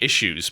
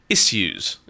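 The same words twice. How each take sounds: First: It is said with an American pronunciation. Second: It is said with an English pronunciation. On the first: The speaker calls it wrong. "it is the American pronunciation" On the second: The speaker calls it right. "but no"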